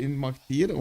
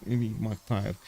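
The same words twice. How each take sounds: First: Immokhtir ending in "teer"; long ee in the last syllable of Immokhtir; pronunciation option. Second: Immokhtir ending in "tire"; long i as in "fire" closing Immokhtir; alternative pronunciation. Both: Shown as a demonstration. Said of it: "how do I pronounce that".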